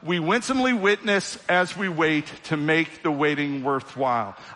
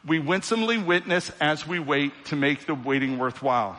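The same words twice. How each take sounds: First: It is said with loud, lively energy. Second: It is said with low, flat energy. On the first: The speaker calls it right. "let's liven it up" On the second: The speaker calls it wrong. "Oh, man, come on"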